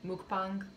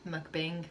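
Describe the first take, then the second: First: Mukbang said as MOOK-bahng, open final vowel; alternative pronunciation. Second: Mukbang said as MUK-bing, closer final vowel; alternative pronunciation. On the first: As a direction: say mukbang with an "ah" in the second syllable. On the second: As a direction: say mukbang with an "ing"-like second syllable. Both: Shown as a demonstration. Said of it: "I don't know what to call it".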